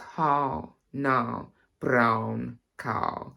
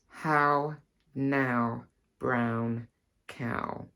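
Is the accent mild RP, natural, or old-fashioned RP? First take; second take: old-fashioned RP; natural. First: It is said in an old-fashioned RP accent. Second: It is said in the speaker's natural accent.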